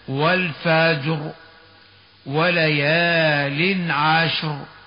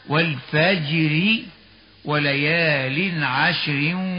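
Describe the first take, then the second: First: The r is heavy, with a stop after it. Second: The r is light, joined to the next word. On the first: "لكننا عند الوقف عليها نفخمها هكذا" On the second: "فحال الوصل مرققة هكذا"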